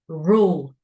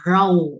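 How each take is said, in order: First: The word ends with a clear L sound. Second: The word ends without a clear L sound. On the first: The speaker calls it right. "this is U and L" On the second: The speaker calls it wrong. "We don't say r- row or rule"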